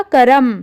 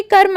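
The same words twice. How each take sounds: First: "करम" said as three syllables, ka-ra-m, with a full र. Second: "कर्म" said as two syllables, the र short and light; quick half r. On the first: Teacher showing the wrong full-र reading of "करम". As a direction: give "करम" a full र with its own vowel. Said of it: "अगर यहाँ पर र पूरा होता तो यह बन जाता करम". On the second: Teacher showing children the half र in "कर्म", quick and light. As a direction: say "कर्म" with a quick unstressed half र, no vowel after it. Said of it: "लेकिन र हमने जल्दी जल्दी बोल लिया". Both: Shown as a demonstration.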